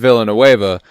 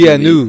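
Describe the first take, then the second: First: The name is said with non-French pronunciation. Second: The name is said with French pronunciation. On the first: The speaker calls it wrong. "I've always said Villanueva" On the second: The speaker calls it right. "is actually closer to being correct since it is Canadian French"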